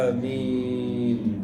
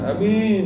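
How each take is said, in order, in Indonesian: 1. Vokalnya diucapkan panjang. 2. Vokalnya diucapkan pendek dan tegas. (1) "bacanya panjang" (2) "Jangan amin"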